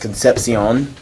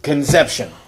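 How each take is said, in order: First: The name is said the Spanish way. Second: The name is said like the English word conception. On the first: This is how the name is really pronounced. "I'm sure it was pronounced Concepcion" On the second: This is how its owner chose to say it. "he pronounced it Conception"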